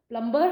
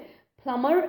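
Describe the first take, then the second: First: A b sound is pronounced in the middle. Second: No b sound is pronounced in the middle. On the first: The speaker calls it wrong. "प्लम्बर हम incorrect pronunciation है" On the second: The speaker calls it right. "प्लम्बर is the right pronunciation"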